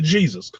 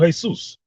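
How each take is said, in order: First: The name begins with an English J sound. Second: The name begins with an H sound. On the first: The name is said carelessly, without respect. The speaker calls it wrong. "I ain't calling you Jesus" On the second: The name is said correctly, showing respect. The speaker calls it right. "I'm calling you Jesus"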